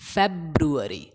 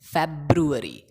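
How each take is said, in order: First: The middle 'ru' syllable is clearly pronounced. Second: The same.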